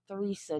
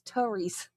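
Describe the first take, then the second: First: The name starts with a TH sound. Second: The name starts with a plain T sound. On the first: The speaker calls it wrong. "It's not Theresa" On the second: The speaker calls it right. "it's Teresa"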